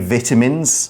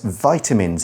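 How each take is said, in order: First: It is said with a British pronunciation. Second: It is said with an American pronunciation. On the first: The speaker calls it wrong. "that is the British pronunciation" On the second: The speaker calls it right. "I'm using the American pronunciation"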